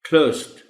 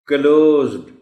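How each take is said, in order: First: The ending sounds like a light t. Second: The final d is pronounced clearly. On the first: The speaker calls it right. "वो T की आवाज बोल देंगे हल्की सी आखिर में" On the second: The speaker calls it wrong. "वो D को भी नुमाया करके पढ़ने की कोशिश करें"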